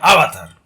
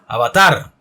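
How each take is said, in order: First: The stress is on the first syllable. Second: The stress is on the last syllable. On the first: The speaker calls it wrong. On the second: The speaker calls it right.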